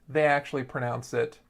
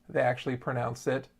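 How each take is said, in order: No difference in how they are said.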